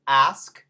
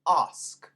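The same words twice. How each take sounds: First: It has a flat front 'a' vowel. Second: It has an open back 'ah' vowel. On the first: "in Amer- like ask" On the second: "the British pronounce ah"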